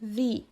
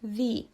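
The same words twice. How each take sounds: First: The vowel is a long 'ee' sound. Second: The vowel is a long 'ee' sound.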